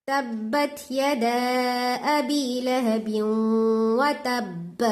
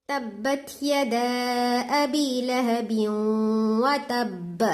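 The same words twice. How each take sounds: Both takes have the same delivery.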